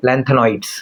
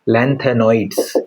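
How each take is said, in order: First: Said in the usual way. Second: "lanthanod's" stretched out slowly, syllable by syllable; slow repeat. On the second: Shown as a demonstration. Teacher repeating the term for students, slow and drawn out. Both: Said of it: "इसको क्या बोलते हैं?".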